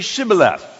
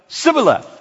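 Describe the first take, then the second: First: The word begins with an sh sound. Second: The word begins with an s sound. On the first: The speaker is from Gilead. The speaker calls it right. "You didn't learn the S-H sound. Sh" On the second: The speaker is from Ephraim. The speaker calls it wrong. "And it comes out Sibboleth"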